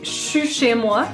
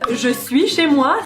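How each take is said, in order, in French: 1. 'Je suis' se réduit en 'chuis', avec un son ch. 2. 'Je suis' se prononce en entier, avec un son j.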